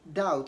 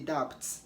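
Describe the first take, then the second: First: The B before the T is silent. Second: The B before the T is sounded. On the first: The speaker calls it right. "it is usually not pronounced in doubt" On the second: The speaker calls it wrong. "don't say doubt"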